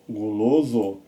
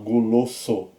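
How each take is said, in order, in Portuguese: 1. A consoante do meio é um som de Z sonoro. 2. A consoante do meio é um som de S surdo. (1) "ele fica com som de Z" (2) "Você não vai falar guloso"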